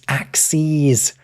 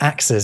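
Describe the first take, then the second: First: The word ends with a long 'seez' sound. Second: The word ends with a short 'siz' sound. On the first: It names the lines of a graph. The speaker calls it right. "The plural of axis" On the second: It names more than one chopping tool. The speaker calls it wrong. "as if as in choppy things"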